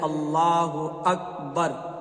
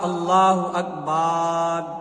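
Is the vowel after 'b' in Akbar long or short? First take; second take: short; long. First: The vowel after b is kept short. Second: The vowel after b is drawn out long. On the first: The speaker calls it right. "बल्कि बोलना चाहिए" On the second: The speaker calls it wrong. "बा को खींच दिया"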